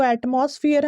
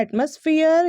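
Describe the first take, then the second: First: एटमॉस्फेयर with a full "moss"; wrong pronunciation. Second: एटमॉस्फेयर with a reduced "muss"; correct pronunciation. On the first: Teacher showing what most people say, wrong pronunciation. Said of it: "सही pronunciation इसका नहीं है". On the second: Teacher recapping the word, correct pronunciation. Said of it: "सही pronunciation होता है". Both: Shown as a demonstration.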